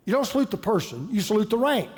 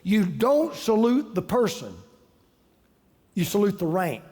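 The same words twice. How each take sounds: First: Said in the usual way. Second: Slow, leaning on don't and salute; measured recital of a military maxim; quoted saying, slow and weighted. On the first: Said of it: "repeats saying in own voice". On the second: Retold or imitated. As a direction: lay out "You don't salute the person" like a motto. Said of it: "The Marine Corps has a saying".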